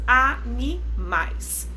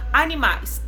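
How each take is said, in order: First: Animais drawn out slowly as a-ni-mais; slow syllable by syllable. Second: Said in the usual way. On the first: Shown as a demonstration. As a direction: spell out animais in slow beats. (animais bem devagar, sílaba por sílaba) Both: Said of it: "Trissílaba".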